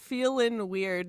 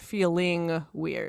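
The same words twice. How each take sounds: First: The word ends in -in without a g sound. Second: The word ends in -ing with a g sound. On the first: The speaker calls it right. "there's no G in feeling" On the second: The speaker calls it wrong. "not Feeling Weird"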